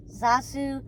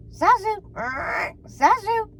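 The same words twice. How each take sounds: First: Squawky talking bird; parrot voice. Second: High squawking parrot call. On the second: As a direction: screech it like a parrot. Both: A narrator's reading. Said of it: "the bird chirped".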